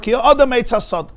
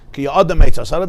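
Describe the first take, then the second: First: Ki Adam Eitz Hasad said with a firm falling tune, Adam stressed high; as a statement. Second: Ki Adam Eitz Hasada with a rising, asking tune on Eitz; as a question. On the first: Teacher reads the verse to students as a plain statement. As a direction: state it flatly as a fact, dropping at the end. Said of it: "say it as a statement". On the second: Teacher reads the verse to students as a question. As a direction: ask it, lifting Eitz Hasada up at the end. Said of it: "The Pasuk actually says it as a question". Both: Shown as a demonstration.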